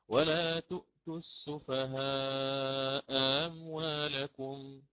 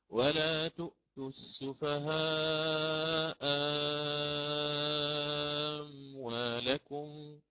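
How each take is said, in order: First: The second hamza is softened, not fully pronounced. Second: The second hamza becomes a long, extended alif. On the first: "آتي بالتسهيل أولا" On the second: "إبدال مع إشباع لأن الميم ساكنة"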